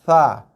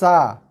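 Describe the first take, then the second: First: A soft th-like sound at the teeth edge. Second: A hissing s with the tongue behind lower teeth. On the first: It is the intended letter. The speaker calls it right. "Tapi huruf sa, ah, makhraj dia" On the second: It is a different letter. The speaker calls it wrong. "hujung lidah sentuh belakang gigi bawah. Sa. Tu huruf sin"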